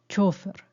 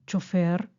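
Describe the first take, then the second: First: The stress is on the first syllable. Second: The stress is on the last syllable. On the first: "o llana" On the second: "Si es aguda"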